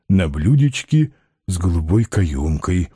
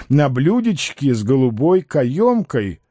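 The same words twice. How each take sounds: First: Low, doltish-dreamy character voice; trusting Balaganov. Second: Lightly voiced assured schemer; confident Ostap. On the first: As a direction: repeat it low, savouring the promise. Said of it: "Балаганов доверчиво усмехнулся". (доверчиво, низким голосом) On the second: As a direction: promise it smoothly and surely. Ostap promises money on a platter. (уверенный голос комбинатора) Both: A narrator's reading.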